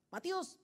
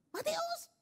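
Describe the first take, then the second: First: Said in the usual way. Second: Very high-pitched parental call; raised intonation. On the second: Acted. Parent calling disobedient child Matius, raised intonation. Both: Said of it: "Nah, naik tuh intonasinya".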